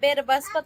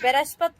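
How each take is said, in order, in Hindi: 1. शब्द के बीच में एक अतिरिक्त 'b' ध्वनि डाली गई है। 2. इस शब्द के अंदर कोई अतिरिक्त 'b' ध्वनि नहीं है।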